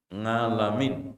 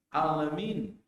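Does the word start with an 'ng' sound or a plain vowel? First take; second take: ng sound; plain vowel. First: The word begins with an 'ng' sound. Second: The word begins with a plain vowel. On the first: The meaning stays the same: Lord of the worlds. "Ini berubah tidak? Tidak" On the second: The meaning changes to lord of the sick. "alam berarti sakit"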